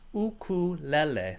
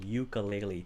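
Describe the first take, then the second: First: It is said with the Hawaiian pronunciation. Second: It is said with the dictionary pronunciation. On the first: "it's obviously a, a Hawaiian word, um, and it's pronounced ukulele" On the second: "It might have that pronunciation, ukulele"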